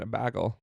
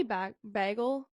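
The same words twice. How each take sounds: First: "a bagel" with a long ay, bay-gel; "a bagel" said the American way, long ay. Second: "bagel" with a short flat a, bah-gel; "bagel" said the Canadian way, short a. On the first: Retold or imitated. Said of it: "like, American". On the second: Shown as a demonstration. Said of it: "I say bagel".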